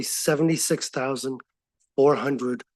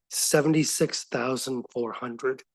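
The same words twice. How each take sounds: First: Said in the usual way. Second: Seventy-six thousand four hundred said slowly, each number weighted; slow emphatic repeat. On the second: Real, not acted. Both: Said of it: "I'll say that again".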